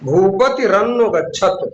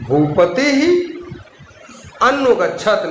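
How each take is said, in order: First: The first word links to the next with r. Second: The first word ends with a breathy h sound. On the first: "लेकिन बोलेंगे क्या?" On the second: "यदि हम विसर्ग लगा के बोले"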